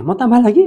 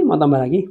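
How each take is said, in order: First: Higher and louder, eagerly inviting; eager call. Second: Said in the usual way. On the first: Real, not acted. Preacher eagerly asking the congregation for more stories.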